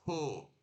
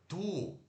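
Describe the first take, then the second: First: The T has a puff of air. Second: The T has no puff of air. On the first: The speaker calls it right. "a gente faz um som aspirado depois do T" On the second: The speaker calls it wrong. "ao invés de falar tu, né, assim, direto"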